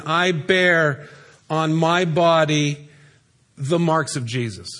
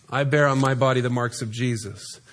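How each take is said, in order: First: Very slow, weighing each word; slow emphatic reading. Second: Lower, quieter repeat. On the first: Shown as a demonstration. Preacher slowly reading Paul's words to the congregation, emphatic. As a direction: read it slowly, letting each word land. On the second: Acted. Preacher voicing Paul's defiant words, lower and quieter. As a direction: lower and softer, a touch of Paul's voice.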